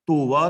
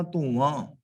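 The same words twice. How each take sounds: First: ਧੋਵਾ with an un-nasal final aa; ਧੋਵਾ, no nasal on the last vowel; wrong reading ਧੋਵਾ. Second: ਧੋਵਾਂ with a nasalised final aan; ਧੋਵਾਂ, last vowel nasal; correct reading ਧੋਵਾਂ. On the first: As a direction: say ਧੋਵਾ with an oral ending. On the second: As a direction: let ਧੋਵਾਂ end through the nose. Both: Shown as a demonstration. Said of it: "ਧੋਵਾ ਨਹੀਂ ਪੜ੍ਹਨਾ".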